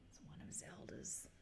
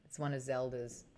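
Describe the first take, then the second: First: Barely audible whisper; whispered aside. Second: Low, softly voiced aside; quiet aside. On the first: Streamer repeating the hair remark to herself, whispered. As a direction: whisper it to yourself. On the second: Streamer on the missing hair, quiet aside. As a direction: say it softly, to yourself. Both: Real, not acted.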